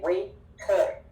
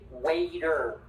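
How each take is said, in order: First: The middle sound is a clear T. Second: The middle sound is like a D. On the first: The speaker calls it wrong. "We do not say waiter" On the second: The speaker calls it right. "like with D"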